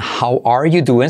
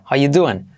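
First: The word 'are' is pronounced. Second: The word 'are' is skipped. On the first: "Fíjate en how are you doing" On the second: "saltamos el R"

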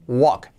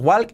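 First: The L sound is silent in the word. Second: The L sound is pronounced in the word. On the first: The speaker calls it right. "es walk. La L no se pronuncia" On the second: The speaker calls it wrong. "cuidado que no es walk"

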